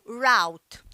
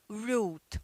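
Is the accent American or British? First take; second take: American; British. First: It is said with an American accent. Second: It is said with a British accent.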